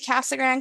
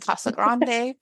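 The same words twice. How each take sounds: First: The name is pronounced the way locals say it. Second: The name is pronounced the way outsiders say it. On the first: The speaker is from the town. "I can say Casa Grande because I'm from there" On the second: The speaker is not from the town. "instead of saying Casa Grande"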